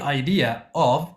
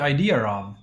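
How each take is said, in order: First: There is a stop between the two words. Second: An r sound links the two words. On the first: The speaker calls it wrong. "to stop and say the" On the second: The speaker calls it right. "They will say it like that"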